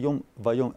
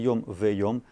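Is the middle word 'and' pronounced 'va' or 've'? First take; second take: va; ve. First: The linking word is pronounced 'va'. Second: The linking word is pronounced 've'. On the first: "тут написано вайом" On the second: "Обычно говорят в"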